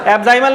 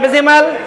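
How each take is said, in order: First: The second vowel sounds like 'eye'. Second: The second vowel sounds like 'ih'. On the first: The speaker calls it wrong. "एब्जाइमल नहीं" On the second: The speaker calls it right. "एब्जाइमल नहीं एब्जिमल"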